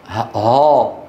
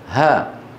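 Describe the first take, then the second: First: The long a vowel sounds heavy and full. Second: The long a vowel sounds light and thin. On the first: The speaker calls it wrong. "تفخيمها في محل الترقيق" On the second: The speaker calls it right. "ماذا يجب أن يقول؟"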